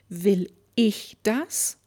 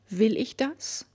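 First: The stress is on "ich". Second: The stress is on "Will".

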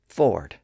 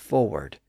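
First: The second syllable has no W sound. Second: The second syllable has a W sound. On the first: This is the older, historical pronunciation. "the W sound had largely disappeared in that second syllable, and it was pronounced as forward" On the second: This is the more recent pronunciation. "that W sound has started to reappear as forward"

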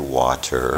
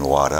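First: The final R sound is clearly pronounced. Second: The final R sound is dropped, Boston style. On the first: "I would say water" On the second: "instead of saying water"

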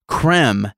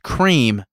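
First: The vowel is short, like in 'them'. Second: The vowel is long, like in 'dream'. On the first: "creme as in them" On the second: "cream as in dream"

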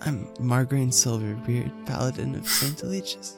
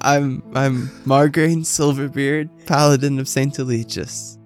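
First: It is said without pride, unsure. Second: It is said proudly, with confidence.

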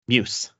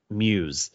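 First: It is said like the start of Mucinex. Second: It is said like the ordinary word muse. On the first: This is how one family says the road name. The speaker calls it wrong. "it's like it's short for Mucinex or something" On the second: This is how most people say the road name. The speaker calls it right. "the entire world pronounces it Muse"

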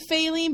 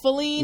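First: The stress is on the first syllable. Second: The stress is on the second syllable. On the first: The speaker calls it wrong. "I always want to say Feline" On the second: The speaker calls it right. "I think it's Feline"

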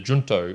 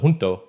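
First: The word is pronounced the English way. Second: The word is pronounced the Spanish way. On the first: The speaker calls it wrong. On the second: The speaker calls it right.

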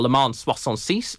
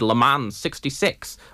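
First: The title is pronounced the French way. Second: The title is pronounced the English way.

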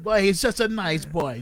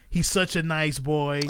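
First: It is said in a Jamaican accent. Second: It is said in his plain accent.

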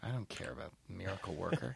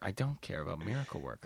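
First: It is said casually, without conviction. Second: It is said forcefully, with real conviction.

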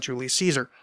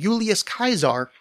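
First: The name is said with modern English sounds. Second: The name is said with classical Latin sounds. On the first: This is how the name is said today. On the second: This is how the name was said in ancient times.

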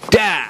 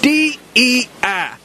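First: It is said as one word, like die. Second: Each letter is said separately.

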